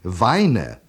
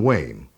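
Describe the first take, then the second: First: The vowel sounds like the one in 'wine'. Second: The vowel sounds like the one in 'rain'. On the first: It is read as a German word from its spelling. The speaker calls it wrong. "everyone pronounces it Weine when they see it written" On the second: It is the name's real English pronunciation. The speaker calls it right. "how it's really pronounced"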